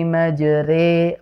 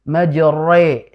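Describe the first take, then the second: First: The r sound is light and thin. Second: The r sound is heavy and thick. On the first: The speaker calls it right. "dibacanya dengan ro tipis" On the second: The speaker calls it wrong. "bukan majre. Jangan terlalu tebal"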